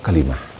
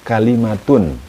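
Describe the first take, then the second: First: The word ends with a soft 'h' sound. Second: The word ends with a full 'tun' syllable. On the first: The word is read at a pause or stop. "kalau dibaca wakof" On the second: The word is read in full, not at a stop. "kalau dibaca lengkap"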